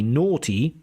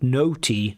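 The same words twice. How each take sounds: First: The first vowel is a rounded aw sound. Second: The first vowel sounds like the vowel in 'phone'. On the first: The speaker calls it right. "it should be naughty with the O" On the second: The speaker calls it wrong. "you were like putting the O, the phone sound"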